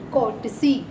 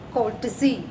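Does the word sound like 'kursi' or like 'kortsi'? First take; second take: kortsi; kortsi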